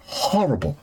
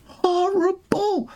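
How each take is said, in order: First: Said in the usual way. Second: "Horrible" stretched slow and much higher; "Horrible" held long and high in disgust; drawn-out horrible. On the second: Shown as a demonstration. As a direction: draw out "Horrible" in a high, slow mocking whine. Repeated word, drawn out high.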